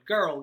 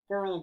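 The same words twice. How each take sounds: First: It is spoken openly with nothing before the mouth. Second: It is spoken through a hand cupped at the mouth. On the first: "say the word girl out loud" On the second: "make a little tunnel, put it up to your mouth"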